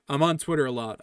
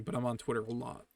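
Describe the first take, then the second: First: "on" hit loud and falling; "I'm on Twitter" with a loud punch on "on"; stress on on. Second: Softer, rising with the weight on "I'm"; quiet confessional "I'm on Twitter a lot"; stress on I'm. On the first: Admits heavy Twitter use. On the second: Repeats it, softer. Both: Real, not acted.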